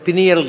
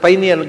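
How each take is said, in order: First: The first syllable has a short 'pih' vowel. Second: The first syllable has the 'pie' vowel. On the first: The speaker calls it wrong. "ಹುಡುಗರು ತಪ್ಪಾಗಿ ಹೇಳ್ತಾರೆ" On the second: The speaker calls it right. "ಪೈನ್ ಎಲೆಯ ಶಂಕುವಿನ ಆಕಾರದಲ್ಲಿ ಇರುವುದರಿಂದ"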